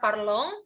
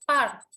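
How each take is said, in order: First: The ending is read as a nasal vowel. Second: The ending is silent, with no nasal vowel. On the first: The speaker calls it wrong. "bukan parlong" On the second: The speaker calls it right. "Jadi bacanya tetap"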